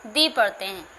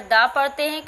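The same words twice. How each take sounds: First: दी with a long "ee" vowel; article said "dee". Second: दा with an open "aa" vowel; article said "daa". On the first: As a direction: say the article as दी, ending in "ee". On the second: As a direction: say the article as दा, ending in "aa". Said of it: "कहीं पर दा पढ़ते हैं". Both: Shown as a demonstration.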